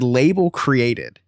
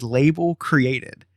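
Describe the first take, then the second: First: "label created." read out slowly, word by word; slow deadpan read. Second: "label created." dragged out slowly; slow deadpan repeat. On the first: Reading the tracking status to friends, slow and deadpan. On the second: Telling friends the bad news again, slow and flat. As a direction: stretch "label created." like a dull verdict. Repeating tracking status flatly. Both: Retold or imitated.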